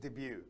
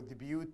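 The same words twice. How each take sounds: First: The final T sound is silent. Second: The final T sound is pronounced. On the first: The speaker calls it right. "It's just debut. The T is silent" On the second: The speaker calls it wrong. "We don't say debut"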